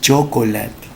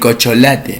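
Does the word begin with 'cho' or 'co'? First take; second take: cho; co. First: The word begins with a 'cho' sound. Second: The word begins with a plain 'co' sound. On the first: The speaker calls it right. "no es cocholate, es chocolate" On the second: The speaker calls it wrong. "cuando dicen, eh, no, el cocholate"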